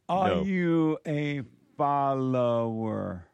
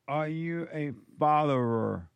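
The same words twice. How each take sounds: First: The question is said more slowly. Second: The question is said too quickly. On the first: The speaker calls it right. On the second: The speaker calls it wrong. "you're saying it too fast"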